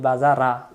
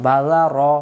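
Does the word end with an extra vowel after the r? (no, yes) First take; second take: yes; no. First: An extra vowel is sounded after the final r. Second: The word ends on the r with no vowel. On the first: The speaker calls it wrong. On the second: The speaker calls it right.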